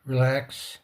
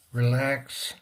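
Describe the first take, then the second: No difference in how they are said.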